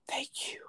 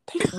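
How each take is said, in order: First: Breathy whispered thank you; barely voiced, a relieved whisper. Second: Said in the usual way. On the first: Quiet thanks as guy leaves.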